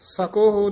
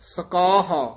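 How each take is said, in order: First: The second syllable has an 'o' vowel. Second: The second syllable has an 'a' vowel. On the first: The speaker calls it wrong. "ਕਾਰਨਾ ਸਕੋਹ ਨਹੀਂ ਕਹਿਣਾ" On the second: The speaker calls it right.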